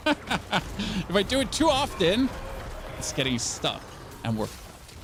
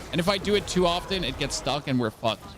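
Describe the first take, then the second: First: Slow, overdone German accent; fake German accent. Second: Said in the usual way. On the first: Shown as a demonstration. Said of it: "that was really fake". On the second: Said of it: "I literally have to overdo it".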